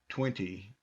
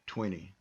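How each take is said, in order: First: The T after the N is clearly pronounced. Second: The T after the N is dropped, like penny. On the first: This is the standard form used worldwide. "with the standard pronunciation" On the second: This is how Americans typically say it. "you'll hear Americans go twenty, like like in penny"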